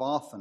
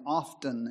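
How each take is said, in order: First: The T sound is left silent in the word. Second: The T sound is pronounced in the word. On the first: The speaker calls it right. "But the T is silent" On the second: The speaker calls it wrong. "has the habit of saying often"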